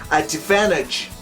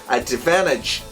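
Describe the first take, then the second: The two takes are said the same way.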